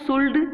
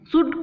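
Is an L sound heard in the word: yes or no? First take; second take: yes; no. First: The L sound is pronounced in the word. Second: The L sound is silent in the word. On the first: The speaker calls it wrong. "बहुत से बच्चे गलती करते हैं ... तो that is wrong" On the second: The speaker calls it right. "ये silent है"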